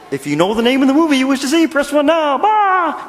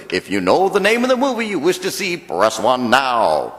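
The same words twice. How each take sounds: First: High, fast, louder puppet voice; Kermit the Frog. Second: Movie phone announcer voice. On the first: Pretend. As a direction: rattle the menu off like the frog puppet. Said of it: "maybe if Kermit the Frog did it". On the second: Retold or imitated. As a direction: read it like the automated phone menu. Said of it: "he goes".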